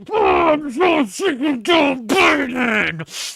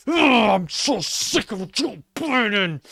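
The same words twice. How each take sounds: First: "Oh, I'm so sick of Joe Biden" shouted slowly, high and loud, in fake crying; hammed-up crying rant, shouted high and slow; mock conservative meltdown. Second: "Oh, I'm so sick of Joe Biden" drawn out slowly in a high, whiny voice; mocking a conservative, slow and whiny; mock conservative whine. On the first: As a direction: bawl it like a sobbing conservative. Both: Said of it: "That's your average conservative".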